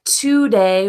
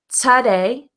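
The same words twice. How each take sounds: First: The first vowel is a full 'o' sound. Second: The first vowel is a relaxed schwa 'uh'. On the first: The speaker calls it wrong. "it looks like today or tomorrow ... it's not pronounced like that in American English" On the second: The speaker calls it right. "Those words are pronounced today ... it has that uh schwa sound"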